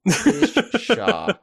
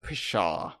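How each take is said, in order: First: High, laughing pshaw; laughing scoff. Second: Said in the usual way. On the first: Acted. Mock dismissive scoff.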